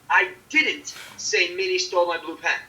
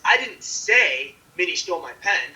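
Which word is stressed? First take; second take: didn't; say. First: The stress is on the word didn't. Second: The stress is on the word say. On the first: The speaker strongly denies having said it. "It's strong denial of having saying said it" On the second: It was indicated some other way, not said. "you didn't say it"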